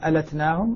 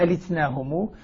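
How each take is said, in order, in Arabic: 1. بعد اللام حركة 'a'. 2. بعد اللام حركة 'i'. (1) "الباقون بفتح اللام" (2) "هو كسر اللام"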